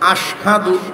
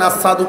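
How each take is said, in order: First: The word is said with a 'sh' sound. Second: The word is said with a plain 's' sound. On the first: The speaker calls it right. "এই যে আশহাদু শিন উচ্চারণ হইত না" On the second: The speaker calls it wrong. "শিনের ক্ষেত্রে সিন উচ্চারণ করতেন, আসাদু কইতেন"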